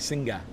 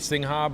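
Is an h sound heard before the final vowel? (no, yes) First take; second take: no; yes. First: No h sound is heard before the final vowel. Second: An h sound is heard before the final vowel. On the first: The speaker calls it right. "but it's actually Singa" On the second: The speaker calls it wrong. "I always say Singha"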